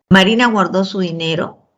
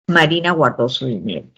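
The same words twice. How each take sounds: First: The pitch rises at the end. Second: The pitch falls at the end. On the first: It is a yes-or-no question. "tono final ascendente" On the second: It is a statement. "tono final descendente"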